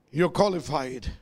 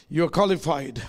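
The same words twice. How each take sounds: The two takes are said the same way.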